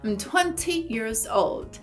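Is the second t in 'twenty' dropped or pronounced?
pronounced. The second t in twenty is clearly pronounced. "os britânicos costumam pronunciar bastante as letras T's. Então, eles provavelmente diriam 20"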